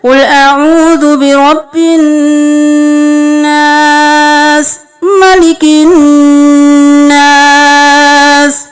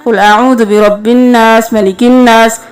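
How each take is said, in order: First: The nasal sound is held for its full length. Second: The nasal sound is rushed and cut short. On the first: The speaker calls it right. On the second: The speaker calls it wrong.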